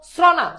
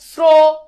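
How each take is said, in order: First: "শ্রনা" with open vowel, sro rejected as sraw, then na; ভুল উচ্চারণ. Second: "শ্র-" as a long, loud sro with a round o; ও-কার উচ্চারণ. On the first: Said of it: "শ্রনা, শ্রবণ". ("শ্রনা" ও-কার ছাড়া, খোলা অ-ধ্বনিতে) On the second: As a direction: hold the o in "শ্র-". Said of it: "ওকার কিন্তু উচ্চারিত হচ্ছে". ("শ্র-" টেনে, স্রো) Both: Shown as a demonstration.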